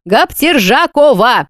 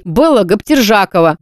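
First: "Гаптержакова" drawn out slowly with a falling end; a slow, proud "Гаптержакова"; said with feeling. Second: Said in the usual way. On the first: Shown as a demonstration. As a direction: spell out "Гаптержакова" slowly and grandly. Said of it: "её надо произносить с чувством". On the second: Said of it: "Заучи, дурочка!".

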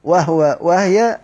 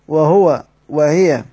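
First: وهو وهي as "wah-wa, wah-ya"; sukun reading. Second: وهو وهي slowly as "wa-huwa, wa-hiya"; full-vowel reading. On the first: Teacher contrasts the iskan reading, وهو وهي with vowelless h. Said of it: "أما قراءة الإسكان". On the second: Teacher sums up the original reading, وهو وهي with vowelled h, slowly. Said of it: "إن قرأت بالضم أو وهي بالكسر". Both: Shown as a demonstration.

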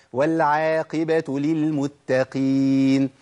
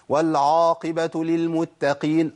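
First: والعاقبه with a thin, light ain. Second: والعاقبه with a thick, heavy ain; a heavy, broad ain in والعاقبه. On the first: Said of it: "هي والع". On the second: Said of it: "كتير من الناس يقول". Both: Shown as a demonstration.

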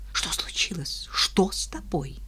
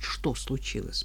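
First: Scared hushed whisper; frightened whisper. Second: Said in the usual way. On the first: Acted. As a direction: whisper it in alarm. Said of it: "испуганный голос обольстительницы". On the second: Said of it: "Мне и самой интересно было знать".

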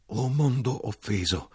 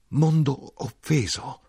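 First: Slow, aching lament of a wounded world; anguished cry. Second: Anguished shout. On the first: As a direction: draw out mondo in a slow falling grieve. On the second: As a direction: hurl "mondo offeso" up high, slowly stretching mondo. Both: A narrator's reading. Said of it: "gridai io".

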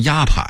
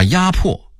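First: 压迫 as yāpǎi; workers' misreading. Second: Said in the usual way. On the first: Shown as a demonstration. Narrator quoting factory masters' misreading. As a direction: say 迫 in 压迫 as pǎi, not pò. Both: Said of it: "把压迫念成".

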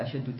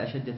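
First: أشد read with a final u, "ashaddu"; nominative misreading. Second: أشد read with a final a, "ashadda"; accusative ending. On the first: Student reading the text to his teacher, nominative misreading أشد as "ashaddu". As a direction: say أشد with damma on the end. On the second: Student rereading after the teacher's correction, accusative أشد as "ashadda". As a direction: say أشد with fatha on the end. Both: Real, not acted.

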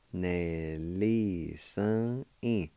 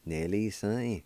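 First: Nelly sun in drawn out very slowly, each syllable held; slow demo. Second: Said in the usual way. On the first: Shown as a demonstration. Teacher slowing Nelly sun in for students to follow. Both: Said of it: "And it's pronounced like this".

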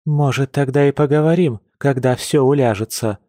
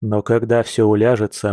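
First: Higher, openly sarcastic echo. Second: Even, earnest promise; sincere promise. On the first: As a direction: throw his promise back mockingly. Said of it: "не скрывая сарказма". (с нескрываемым сарказмом) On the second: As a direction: reassure her in a calm, level voice. Man's sincere promise, later echoed sarcastically. (спокойно, искренне обещая) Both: A narrator's reading.

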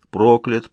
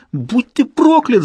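First: Toneless, mechanical echo; droning creature. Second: High, drawn-out screamed curse; yelling. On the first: Creature echoing the narrator's curse, droning. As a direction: drone it back with no feeling. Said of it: "пробубнило оно". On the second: Narrator struggling with his corpse, yelling. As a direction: howl the curse with full force. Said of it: "завопил я ещё громче". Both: A narrator's reading.

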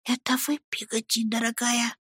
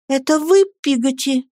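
First: Put-on very soft, high boyish whisper; whispered question. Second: Startled question. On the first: Boy whispering to his nanny through a keyhole, hushed question. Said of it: "прошептал". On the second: Boy reaching out in the dark to his nanny, high startled question. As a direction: ask it aloud, voice lifted. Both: A narrator's reading.

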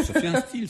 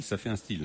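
First: High-pitched burst of delight; enthusiastic exclaim. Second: Said in the usual way. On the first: Real, not acted. Host cheering the singer's accent, excited and high. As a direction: pitch it way up in approval.

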